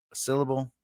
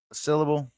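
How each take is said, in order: Both takes have the same delivery.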